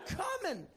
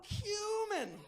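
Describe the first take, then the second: First: It sounds just like the phrase come in. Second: It starts with cue, sounding like cue-min. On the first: The speaker calls it wrong. "What sounds exactly like, oh, come in" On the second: The speaker calls it right. "I should have pronounced it correctly"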